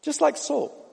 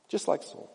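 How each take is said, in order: First: Said in the usual way. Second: Much softer, dropped almost to a murmur; hushed echo. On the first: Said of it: "repeated for emphasis". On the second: Shown as a demonstration. Preacher repeating to congregation, hushed echo. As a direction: let it sink in, barely voiced. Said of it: "quiet echo of the line".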